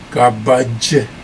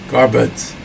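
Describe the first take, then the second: First: The word ends with a 'j' sound. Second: The word ends with a 'dz' sound. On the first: "Instead of garbage" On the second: "North Indians say gar, garbuds for garbage"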